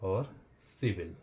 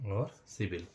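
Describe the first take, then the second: First: Slow demo. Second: Said in the usual way. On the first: Shown as a demonstration. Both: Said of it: "मतलब पढ़ेंगे भी".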